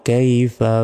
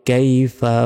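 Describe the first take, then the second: The two takes are said the same way.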